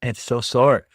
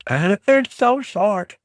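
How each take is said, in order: First: Said in the usual way. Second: "so" stretched high and loud; stress on SO. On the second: Shown as a demonstration. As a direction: drag out "so short" slowly and high.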